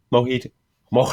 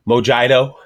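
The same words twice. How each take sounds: First: Said in the usual way. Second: "mojito" said as "mo-JAI-do"; mojito mispronounced. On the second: Acted. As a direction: botch "mojito" with an English J and long I, louder. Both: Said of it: "when people try to pronounce".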